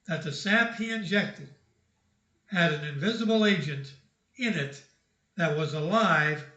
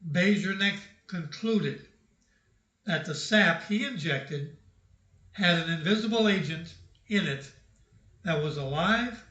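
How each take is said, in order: First: It is said at a normal pace. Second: It is said slowly and deliberately.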